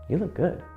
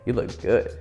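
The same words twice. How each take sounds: First: It is said in a soft, sweet tone. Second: It is said in a casual, offhand tone.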